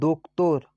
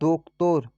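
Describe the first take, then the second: No difference in how they are said.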